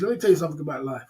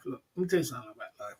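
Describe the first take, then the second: First: Fast preachy aside. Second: Fast, softer aside. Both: Shown as a demonstration.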